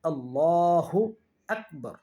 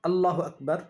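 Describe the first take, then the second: First: The vowel after the 'l' is drawn out. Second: The vowel after the 'l' is short. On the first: The speaker calls it right. "এখানে লামকে টেনে পড়তে হবে" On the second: The speaker calls it wrong. "এটাকে যদি কেউ টেনে না পড়ে বলে"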